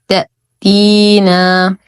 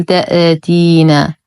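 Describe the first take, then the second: First: "تأتينا" recited slowly, sound stopped dead on أ; cut-off hamza. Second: "تأتينا" with an echo vowel after the أ; bouncing hamza, mistake demo. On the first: Teacher models a firm hamza for learners, "تأتينا" cleanly cut. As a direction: stop sharply at the hamza in "تأتينا". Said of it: "الهمزة حرف شديد ينقطع الصوت فيه". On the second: Teacher warns learners of the error, echoed hamza in "تأتينا". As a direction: let the hamza in "تأتينا" rebound. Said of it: "ولا نقول". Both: Shown as a demonstration.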